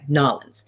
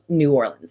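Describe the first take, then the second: First: The name is run together into fewer syllables. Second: The name is said in full, syllable by syllable. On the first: The speaker calls it right. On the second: The speaker calls it wrong.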